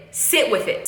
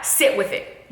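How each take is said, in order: First: Said in the usual way. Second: Breathy whisper of sit with it. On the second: Shown as a demonstration. Coaching a sad listener, whispered gently. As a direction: hush the words sit with it. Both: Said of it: "the next time you're sad".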